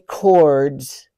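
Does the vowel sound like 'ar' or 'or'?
or. The vowel is a rounded 'or' sound. "They don't say cords"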